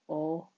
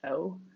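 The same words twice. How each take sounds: First: The vowel stays pure and steady throughout. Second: The vowel glides from one sound into another. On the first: "a long O would be O" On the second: "when we say O in American English, it's a, we call it diphthong"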